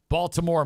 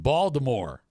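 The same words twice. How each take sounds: First: It is pronounced as the ordinary city name. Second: It is pronounced blended with the sound of Voldemort. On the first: The speaker calls it right. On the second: The speaker calls it wrong.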